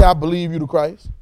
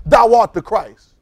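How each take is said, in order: First: Hedging, tentative reading; a hint of doubt; unsure believer. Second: Slow, loud, certain proclamation; real absolute. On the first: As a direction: say it like a guess, not a fact. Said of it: "He didn't say". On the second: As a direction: declare it, no hesitation. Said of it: "You have to be real absolute". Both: Shown as a demonstration.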